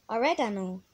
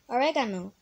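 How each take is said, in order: The two takes are said the same way.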